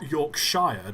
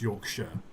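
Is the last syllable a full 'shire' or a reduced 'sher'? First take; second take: full; reduced. First: The last syllable is a full 'shire'. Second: The last syllable is a reduced 'sher'. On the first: The speaker calls it wrong. "it's not Yorkshire, despite it being spelt Yorkshire" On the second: The speaker calls it right. "It's Yorkshire"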